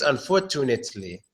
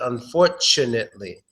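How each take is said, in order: First: The middle consonant is a clear t sound. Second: The middle consonant is a ch sound. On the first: The speaker calls it wrong. "maybe some of you think it's unfortunately. We don't make the T sound there" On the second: The speaker calls it right. "We actually make a C H sound"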